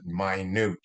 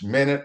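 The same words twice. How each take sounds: First: It is pronounced as the adjective meaning tiny. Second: It is pronounced as the time-unit noun. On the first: It means something very small. "when it's an adjective, we pronounce it minute" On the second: It names a unit of time. "like we're talking about how many minutes in a in an hour, uh, that's a noun"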